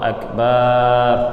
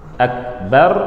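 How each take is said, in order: First: The vowel after b is drawn out long. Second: The vowel after b is kept short. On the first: It means a drum. The speaker calls it wrong. "Ba-nya apa? Panjang" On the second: It means the Greatest. The speaker calls it right. "Akbar Maha Besar"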